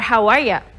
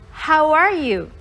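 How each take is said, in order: First: The last word is shortened to ya. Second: The last word is said fully as you.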